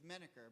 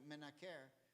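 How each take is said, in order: First: It is pronounced the English way. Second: It is pronounced the Hebrew way. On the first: "in English it's menaker" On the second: "in Hebrew you pronounce it menaker"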